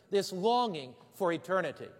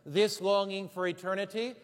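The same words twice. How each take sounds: The two takes are said the same way.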